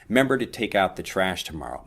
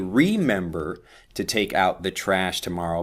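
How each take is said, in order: First: It is said quickly, remember shortened to member. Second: It is said carefully, with full remember.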